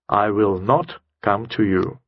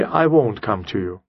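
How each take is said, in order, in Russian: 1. Слова will not произносятся полностью. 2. Слова will not сокращаются до won't. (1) "Это резкое, четкое, однозначное, сердитое чуть-чуть даже высказывание" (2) "Это обычная фраза"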